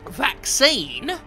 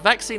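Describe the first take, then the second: First: The word is said in a silly put-on voice. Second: The word is said in a normal voice.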